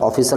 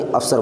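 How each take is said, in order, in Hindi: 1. इसे तीन अक्षरों में बोला जाता है, 'of-fi-cer'। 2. इसे दो अक्षरों में बोला जाता है, 'af-sar'। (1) "ऑफिसर नहीं" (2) "अफसर बोला जाएगा उर्दू में"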